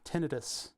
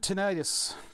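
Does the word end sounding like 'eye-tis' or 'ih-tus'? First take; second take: ih-tus; eye-tis. First: The ending is said like 'ih-tus'. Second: The ending is said like 'eye-tis'. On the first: The speaker calls it right. "That's the proper way to say it" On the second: The speaker calls it wrong. "I said it wrong. Tinnitus is not an itis"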